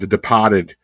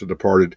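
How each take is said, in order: First: It is said in a Boston accent. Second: It is said in a plain, general accent.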